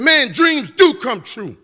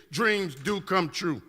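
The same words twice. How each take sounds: First: Louder, slow and higher, savouring every word; excited exclamation. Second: Softer and slow, each word laid down; soft slow conviction. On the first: Retold or imitated. Beside Jeff Immelt, an amazed, slow, loud cry of joy. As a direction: let the joy burst out slowly. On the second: Acted. Telling the audience the lesson, a soft, slow, sincere promise. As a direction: say it gently like a promise.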